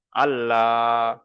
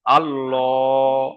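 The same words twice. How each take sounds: First: Very slow আল্লাহ with a thin, light L; a drawn-out, light আল্লাহ; light thin Allah. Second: Very slow আল্লাহ with a full round L; a drawn-out, heavy আল্লাহ; heavy rounded Allah. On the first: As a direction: keep the lips spread on আল্লাহ. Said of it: "এটা হলো বারিক". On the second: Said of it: "পুর করে পড়তে হবে". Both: Shown as a demonstration.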